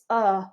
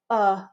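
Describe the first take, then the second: First: The vowel is a relaxed 'uh' sound. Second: The vowel is a relaxed 'uh' sound.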